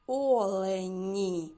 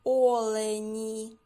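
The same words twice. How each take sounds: First: Олені repeated slowly with a falling end; slow articulation for children; slow clear repeat. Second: Олені said slowly and loudly; slow teacher articulation; slow clear word. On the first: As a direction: stretch Олені again and let it fall. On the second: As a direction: draw out Олені so the final і is heard. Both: Shown as a demonstration. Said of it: "Зловили звук «і»?".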